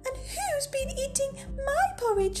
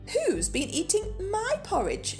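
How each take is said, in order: First: It is said in a tiny, squeaky voice. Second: It is said in a medium-pitched voice.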